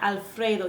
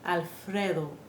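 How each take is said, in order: First: The vowel is a gliding 'ay' sound. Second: The vowel is a short, pure 'eh' sound. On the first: The speaker calls it wrong. "Not Alfredo" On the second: The speaker calls it right. "It should be Alfredo"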